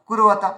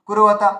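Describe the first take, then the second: No difference in how they are said.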